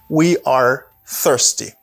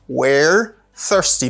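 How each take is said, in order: First: 'We are' is said as two separate words. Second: 'We are' is shortened into one syllable. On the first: "We are the full form" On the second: "pour contraction, for contraction"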